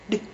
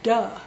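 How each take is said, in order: First: The consonant is a short, voiced burst alone. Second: The consonant is followed by an added vowel sound. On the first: The speaker calls it right. "We want d" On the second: The speaker calls it wrong. "It's not duh. That's a syllable"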